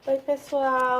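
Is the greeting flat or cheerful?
flat. It is said in a flat, less cheerful tone.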